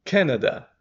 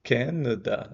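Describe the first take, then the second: First: "Canada" with CAN hit high and loud; a strongly stressed CA-nada. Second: Canada with relaxed A's; lazy A in Canada. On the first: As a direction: punch the first syllable of "Canada" high and loud. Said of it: "Aqui é o can". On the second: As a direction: let the A's of "Canada" go weak. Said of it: "A sem vontade". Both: Shown as a demonstration.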